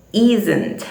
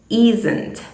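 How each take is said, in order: Both takes have the same delivery.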